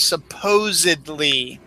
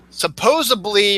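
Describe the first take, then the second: First: Supposedly as "suh-POZE-id-lee"; correct pronunciation. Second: Supposedly said as "suh-POZE-uh-blee"; mispronunciation. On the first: Host comparing two forms of a word, correct pronunciation. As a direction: say supposedly slowly with a clear D. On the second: Host comparing two forms of a word, mispronounced. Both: Shown as a demonstration. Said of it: "The proper term is supposedly".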